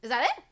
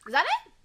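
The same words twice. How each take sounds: First: Said in the usual way. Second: With feeling. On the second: Shown as a demonstration. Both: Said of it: "Once more, with feeling".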